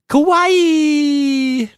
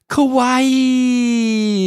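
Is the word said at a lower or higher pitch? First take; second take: higher; lower. First: A cute voice at a higher pitch. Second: A cute voice at a fairly low pitch. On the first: "You need to just go a little bit higher" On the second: "I'm probably horrible at trying to say it in a cute way"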